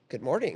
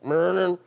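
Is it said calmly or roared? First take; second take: calmly; roared. First: It is said in a calm, quiet voice. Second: It is roared loudly like a dinosaur.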